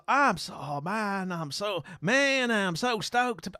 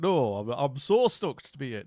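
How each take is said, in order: First: Higher, hammed-up American accent; over-keen mock American; bad American accent. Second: Broad Yorkshire vowels; plain-pitched comic Yorkshire; Yorkshire accent. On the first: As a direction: gush in a failed American drawl. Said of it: "I can't do the accent". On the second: Acted. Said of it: "I'll do a Yorkshire accent".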